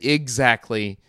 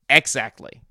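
First: It is said with a hard G sound. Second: It is said with an X sound. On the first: The speaker calls it wrong. "you said exactly multiple times" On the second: The speaker calls it right. "it's exactly. There's an X. there's no G"

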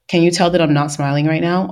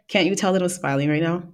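First: It is said without a smile. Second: It is said with a smile.

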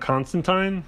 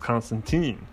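First: The name ends with a British 'tyne' sound. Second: The name ends with an American-style ending. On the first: "technically his name is really John Constantine, but no one in America pronounces it that way" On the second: "us Yanks, or Americans, we pronounce it as Constantine"

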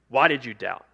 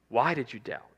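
First: It is said in an accusing tone. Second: It is said in a gentle, inviting tone.

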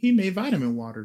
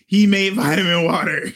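First: It is said in his normal voice. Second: It is said in an imitated auntie voice.

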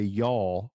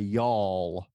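First: The L sounds are plain and not drawn out. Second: The L sounds are emphasized and drawn out. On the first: "we don't say y'all" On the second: "We emphasize the L's"

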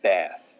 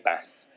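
First: It is said in an American accent. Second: It is said in a northern English accent. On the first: "Americans sort of like bath" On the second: "Someone up north would say bath"

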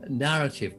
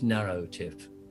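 First: The word begins with a plain, short 'nar' sound. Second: The word begins with a sound like 'narrow'.

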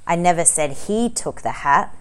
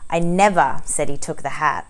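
First: The word 'took' is stressed. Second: The word 'said' is stressed.

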